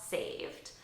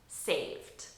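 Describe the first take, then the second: No difference in how they are said.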